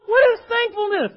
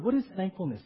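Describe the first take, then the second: First: High, loud exclaimed question; fired-up, high-pitched preacher's shout; exasperated outburst. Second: Said in the usual way. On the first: Shown as a demonstration. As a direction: burst out with it, cutting through the stuffiness. Breaks off dry study, exclaims.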